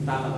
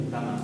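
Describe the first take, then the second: Both takes have the same delivery.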